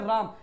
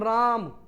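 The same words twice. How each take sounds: First: The vowel is said at normal length. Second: The vowel is drawn out about three times longer.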